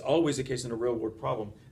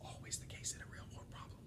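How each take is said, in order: First: The phrase is said loudly and forcefully. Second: The phrase is said quietly, almost whispered. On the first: "I'll say that louder" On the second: "That was a whisper"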